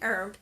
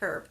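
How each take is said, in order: First: The h at the start is silent. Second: The h at the start is pronounced.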